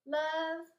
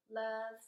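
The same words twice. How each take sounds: First: "Love," sung out high and loud; sign-off demo. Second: Said in the usual way. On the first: Shown as a demonstration. Teacher showing kids how to close a letter, loud and high. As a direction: announce "Love," brightly as the letter's closing word. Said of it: "that's how we end". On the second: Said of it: "Or if you're writing your note".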